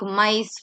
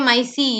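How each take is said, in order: First: The final vowel is not pronounced. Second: The final vowel is pronounced aloud. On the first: The speaker calls it right. "the E becomes silent" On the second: The speaker calls it wrong. "you don't say micey"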